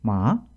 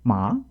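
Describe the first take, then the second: First: The pitch dips, then ends up high. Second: The pitch dips, then ends up high.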